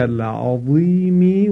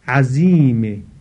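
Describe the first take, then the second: First: The middle consonant is the heavy emphatic sound. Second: The middle consonant is a plain z sound. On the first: It means great. The speaker calls it right. "این کلمه عظیم با واء مؤلف و الفدار هست که به معنای بزرگ هست" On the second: It means a fierce enemy. The speaker calls it wrong. "به شکل زا تلفظ بکنه، یعنی ساده تلفظ بکنه"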